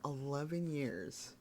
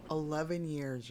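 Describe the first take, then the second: First: "Eleven years" drawn out slowly, hitting "Eleven"; slow down and lean into "Eleven" in disbelief; slow, stunned stress on "Eleven". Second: Said in the usual way. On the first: Real, not acted. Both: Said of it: "I cannot believe it".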